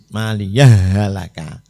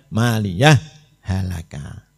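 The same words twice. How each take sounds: First: The two h sounds merge into one doubled h. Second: The two h sounds stay separate with a break. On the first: "kalau dibaca apa idhom kan harus ditasdid" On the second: "Kalau idhar"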